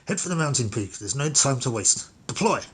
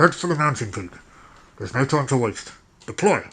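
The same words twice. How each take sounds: First: It is read in a plain, ordinary voice. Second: It is read in a put-on radio voice.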